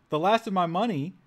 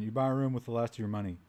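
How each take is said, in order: First: Incredulous, higher and louder; outraged double take at "last"; "The last of my money?" thrown out high and loud in disbelief; surprised. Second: Said in the usual way. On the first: Real, not acted. Incredulous reaction to game line.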